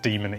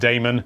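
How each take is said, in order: First: The first syllable sounds like 'dee'. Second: The first syllable sounds like 'day'. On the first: The speaker calls it right. "It's pronounced Demon, even with an A" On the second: The speaker calls it wrong. "If anyone starts pronouncing it Damon, don't"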